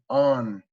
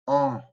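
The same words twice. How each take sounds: First: It ends with a full N, tongue touching. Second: It ends in a nasal vowel, no tongue contact. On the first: "if you're going to say it with a regular N" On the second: "without touching your tongue to the roof of your mouth"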